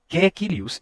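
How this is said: The first vowel sounds like 'e'. This is the rustic countryside accent. "e sim Caecilius e Praetor"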